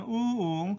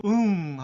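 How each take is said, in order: First: 우응 stretched to three beats, higher in pitch; negative three-beat 우응. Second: 응 on two beats, starting strong and falling; affirmative two-beat 응. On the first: Teacher contrasts no with yes, high three-beat 우응. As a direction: draw out 우응 as a no over three beats. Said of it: "삼 박자가 됩니다". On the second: Teacher contrasts yes with no, falling two-beat 응. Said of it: "두 박자예요". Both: Shown as a demonstration.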